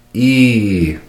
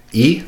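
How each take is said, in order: First: Long, louder "E"; "E" stretched well past normal length; dragged vowel. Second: Said in the usual way. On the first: Shown as a demonstration. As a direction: drag "E" out as a held ee. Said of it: "would sound like this". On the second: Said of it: "a dragged".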